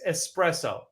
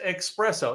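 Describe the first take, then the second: First: The first syllable sounds like 'ess'. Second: The first syllable sounds like 'ex'. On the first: The speaker calls it right. "It's espresso" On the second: The speaker calls it wrong. "Most people pronounce it espresso. It's not"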